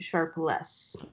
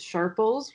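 First: The ending is a clear 'less' sound. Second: The ending is not a clear 'less' sound. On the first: The speaker calls it right. "it's actually Sharpless" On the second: The speaker calls it wrong. "everybody thinks it's Sharples, which is because of how it's spelled"

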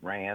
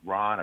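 First: The name sounds like Rand, ending in nd. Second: The name sounds like Ron, with no final d. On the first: The speaker calls it right. "I've heard Rand. I'm going Rand" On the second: The speaker calls it wrong. "I've heard Ron"

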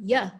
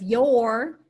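First: The word is reduced to a schwa vowel. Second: The word has its full vowel. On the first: "if you're condensing the word, it might become ya" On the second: "Instead of your"

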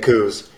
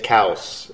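First: The vowel sounds like the one in 'news'. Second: The vowel sounds like the one in 'cows'. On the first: This is how people in the area say it. "But here locally, right, we say coos" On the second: This is the accepted or official way to say it. "You better say it cows"

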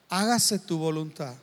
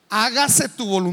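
First: It sounds defeated and powerless. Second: It sounds annoyed and irritated.

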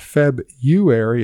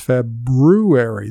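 First: There is no R sound after the B. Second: An R sound is heard after the B. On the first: The speaker calls it wrong. "It's not February" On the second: The speaker calls it right. "It's February. There's an R in there"

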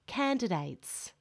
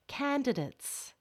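First: The last syllable has a full diphthong vowel. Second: The last syllable has a weak schwa vowel. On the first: "with an A diphthong in the last syllable" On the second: "with a schwa in the last syllable"

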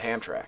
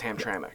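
First: The name is said as Hamtrak. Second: The name is said as Hamtramck. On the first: The speaker calls it wrong. "I said Hamtrak" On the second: The speaker calls it right. "and it's Hamtramck"

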